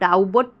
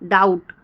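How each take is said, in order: First: A b sound is voiced before the t. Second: The b is silent, no b sound. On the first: The speaker calls it wrong. "डाउट को हम डाउबट नहीं पढ़ेंगे" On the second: The speaker calls it right. "बी silent होता है"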